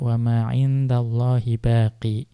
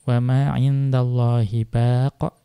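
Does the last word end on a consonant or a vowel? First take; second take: vowel; consonant. First: The last word ends on an 'ee' vowel. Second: The last word ends on a consonant. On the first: One reciter reads it this way when pausing. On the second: Most reciters read it this way when pausing.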